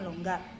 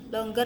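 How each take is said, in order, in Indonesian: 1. Kata ini berakhir dengan bunyi 'gar' yang keras. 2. Kata ini berakhir dengan bunyi 'ger' yang lembut. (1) "bukan longgar" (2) "Longer ya"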